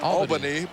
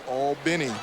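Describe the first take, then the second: First: It is said the northern, New York way. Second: It is said the southern, Georgia way. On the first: This is the city in New York. "Up north, it's all, all Albany" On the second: This is the city in Georgia. "but down in Georgia, it's Albany"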